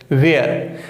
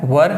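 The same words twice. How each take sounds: First: Were said as वेयर, drawn out like where; वेयर with a long ay vowel; wrong were. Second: Were said as वर, short and flat; वर with one short vowel, not वेयर; correct were. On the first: Teacher imitating students' common mistake, वेयर. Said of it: "तो वेयर इसका उच्चारण नहीं है". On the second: Teacher showing the class the right way, वर. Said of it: "This is the right pronunciation". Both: Shown as a demonstration.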